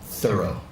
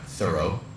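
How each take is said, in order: First: The stress is on the first syllable. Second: The stress is on the second syllable. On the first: The speaker calls it right. "it's Thorough" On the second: The speaker calls it wrong. "we always put the emphasis on the second syllable"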